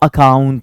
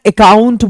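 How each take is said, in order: First: It is pronounced in the standard way. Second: It is pronounced in the local regional way. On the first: The speaker calls it right. "वो अकाउंट होता है" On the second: The speaker calls it wrong. "हमारे यहाँ अकाउंट बोला जाता है"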